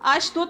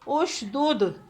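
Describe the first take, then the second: First: The first vowel is a. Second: The first vowel is u. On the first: The speaker calls it wrong. "अशदुद नहीं पढ़ेंगे" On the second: The speaker calls it right. "हम इसे पेश देंगे"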